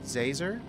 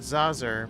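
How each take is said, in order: First: The name rhymes with laser. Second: The name does not rhyme with laser. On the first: The speaker calls it right. "It's pronounced Zazer, like laser, with a Z" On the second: The speaker calls it wrong. "So not Zazer"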